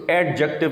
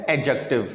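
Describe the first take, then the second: First: ایڈجیکٹو with hard d before j; sounded D. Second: ایڈجیکٹو as "ej-ective"; no d before the j in ایڈجیکٹو; silent D. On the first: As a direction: say "ed-jective" for ایڈجیکٹو. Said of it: "ایڈجیکٹو نہیں کہنا". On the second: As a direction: glide straight to j in ایڈجیکٹو. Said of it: "اس میں ڈی silent ہے". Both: Shown as a demonstration.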